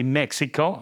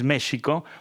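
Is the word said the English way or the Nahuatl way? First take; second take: English; Nahuatl. First: It is said the English way. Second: It is said the original Nahuatl way. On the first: "the English pronunciation is closer to the Nahuatl because you you say Mexico" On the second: "the original is Mexico"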